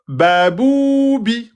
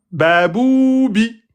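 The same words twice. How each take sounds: First: Baboubi drawn out, ba held two beats; deliberately slow reading. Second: Baboubi with ba bou run together too short; wrong length, babou rushed. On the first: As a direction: stretch the first vowel of baboubi. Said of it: "j'ai bien mis deux temps". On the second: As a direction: read Baboubi with a clipped first syllable. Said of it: "Il y a où l'erreur?". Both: Shown as a demonstration.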